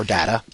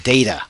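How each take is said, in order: First: "data" with a short A, as in cat; DAT-uh pronunciation. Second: "data" with a long A, as in day; DAY-tuh pronunciation. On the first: Lecturer showing students both accepted sayings, "data" as DAT-uh. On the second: Lecturer showing students both accepted sayings, "data" as DAY-tuh. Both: Shown as a demonstration. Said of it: "You can say data or data".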